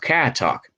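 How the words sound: It is said in a Boston accent.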